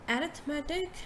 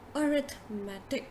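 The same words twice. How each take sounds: First: The first vowel sounds like 'a'. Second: The first vowel sounds like 'uh'. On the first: The speaker calls it wrong. "instead of saying arithmetic ... don't say a" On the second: The speaker calls it right. "please pronounce it like arithmetic ... you say uh first"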